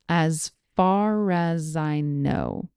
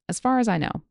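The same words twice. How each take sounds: First: The phrase is spoken slowly and carefully. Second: The phrase is spoken at normal conversational speed. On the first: "Here it is slowly" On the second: "here it is at normal speed"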